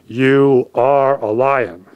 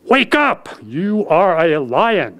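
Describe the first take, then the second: First: Lion commanding. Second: Lion rousing. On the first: Lion shoves face in pool. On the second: Lion rouses the cub. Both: A narrator's reading.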